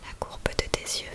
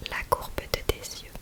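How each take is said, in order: Both takes have the same delivery.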